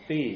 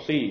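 First: "ซี่" thinly, tongue slightly out; tongue-tip Arabic tha. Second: "ซี่" with a slightly thick, heavy s; thick Arabic sad. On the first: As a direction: lisp the start of "ซี่" lightly on the tongue tip. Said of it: "แลบลิ้นออกมานิดนึง". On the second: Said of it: "หนานิดนึง". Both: Shown as a demonstration.

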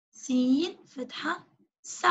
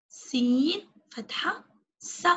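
Both takes have the same delivery.

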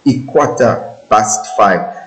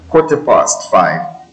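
First: Slow "Ikwata bust five", street style; "quarter past" turned into a drawn-out "Ikwata bust"; street pronunciation. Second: Said in the usual way. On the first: Shown as a demonstration. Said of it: "the way people use the language on the street". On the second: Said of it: "That means quarter past five".

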